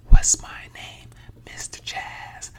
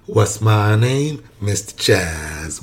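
First: It is spoken in a whisper. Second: It is spoken in a normal voice.

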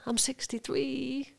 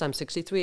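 First: It is said in a meek, apologetic tone. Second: It is said in a proud, confident tone. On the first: The speaker is sorry about their age. The speaker calls it wrong. "I'm apologising before I start" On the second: The speaker owns their age. The speaker calls it right. "I'm 63 and I'm proud of 63"

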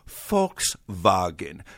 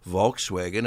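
First: It is said with a German pronunciation. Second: It is said with an American English pronunciation.

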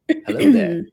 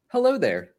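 First: It is said in an imitated character voice. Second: It is said in a plain, ordinary reading voice. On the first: The speaker calls it right. "We should all do our best Kenobi impressions" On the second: The speaker calls it wrong. "I should not read it like that"

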